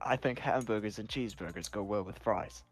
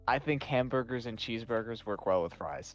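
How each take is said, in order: First: It is said in a British accent. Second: It is said in his plain accent.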